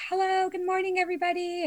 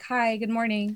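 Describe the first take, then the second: First: High, bright sing-song hello; cheery greeting. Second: Said in the usual way. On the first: Retold or imitated. Coworker mimics her usual cheery hello. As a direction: chirp it like a happy morning greeting. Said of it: "normally you walk in and you're, like, happy". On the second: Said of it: "today you were just like".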